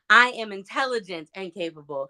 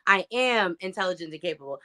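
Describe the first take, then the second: First: The stress falls on the word "intelligent". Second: The stress falls on the word "am".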